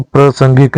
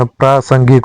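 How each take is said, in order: First: प्रासंगिक with first vowel short; wrong form. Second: प्रासंगिक with long first aa; correct form. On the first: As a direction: say pra-sangik for प्रासंगिक. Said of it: "नहीं होता". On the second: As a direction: say praa-sangik for प्रासंगिक. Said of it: "होता है". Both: Shown as a demonstration.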